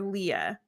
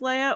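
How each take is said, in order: First: The name starts with an 'ee' vowel sound. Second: The name starts with an 'ay' vowel sound. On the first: The speaker calls it right. "But it's Leah" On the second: The speaker calls it wrong. "Like Princess Leia"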